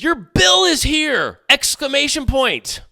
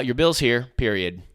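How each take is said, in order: First: High, drawn-out, overexcited announcement; mock excitement. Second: Said in the usual way. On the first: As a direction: announce it like thrilling news, hammed-up. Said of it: "supposed to be excited". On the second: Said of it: "Stated facts. Don't try to add emotion".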